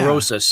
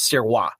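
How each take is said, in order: First: The name is said with English pronunciation. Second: The name is said with French pronunciation. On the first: "I'm used to hearing" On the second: "That's the French Canadian way of saying it"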